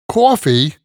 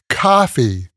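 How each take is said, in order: First: It is said in a New York accent. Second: It is said in a Los Angeles accent. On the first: "as we call it in New York" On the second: "as they call it in L A"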